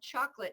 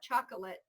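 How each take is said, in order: First: The middle syllable is dropped, giving two syllables. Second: All three syllables are pronounced. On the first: The speaker calls it right. "another one of those dropped syllables" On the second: The speaker calls it wrong. "not chocolate"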